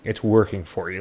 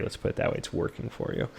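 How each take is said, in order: First: Said in the usual way. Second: Soft breathy whisper, no voice; whispered aside. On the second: Real, not acted. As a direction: drop to a whisper for the repeat. Whispered repeat of own remark.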